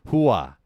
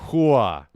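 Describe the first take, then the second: First: It is said in a Sopranos New Jersey accent. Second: The same.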